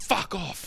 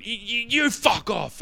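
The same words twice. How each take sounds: First: High-pitched imitation of the bloke telling him to get lost; mock punter's brush-off. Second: High, slow, stammering mock retort; lame stammered comeback. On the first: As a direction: toss it off like the rival in the scuffle. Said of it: "he went". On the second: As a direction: fumble the comeback like a flustered teenager. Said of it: "I went".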